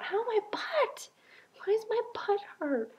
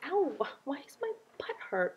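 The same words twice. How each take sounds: First: High, whispery whine of pain, much higher; mock pained squeal. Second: Mock pained whine. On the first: Complaining on the exercise bike, high mock pained squeal. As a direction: squeak it out like a sore little kid. Retelling sore butt on the bike. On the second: Retelling her sore butt in bathtub.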